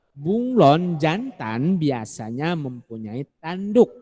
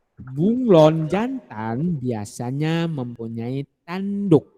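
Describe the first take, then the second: The two takes are said the same way.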